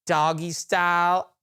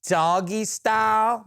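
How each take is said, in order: First: Her words as she said them, "doggy style" drawn out slowly; quoting her. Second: Slow, disbelieving repeat of "doggy style"; incredulous echo. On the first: Coworker quoting the drunk woman in the terminal. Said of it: "She said". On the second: Repeating her words back to the listeners in disbelief. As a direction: drag out "doggy style" in shock. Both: Retold or imitated.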